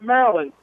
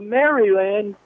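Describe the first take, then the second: First: It is said in a local Maryland accent. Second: It is said with a standard general pronunciation.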